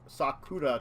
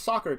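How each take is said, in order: First: The word is said slowly and clearly. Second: The word is said quickly and blurred. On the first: The speaker calls it right. "There you go" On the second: The speaker calls it wrong. "I'm saying it too quickly"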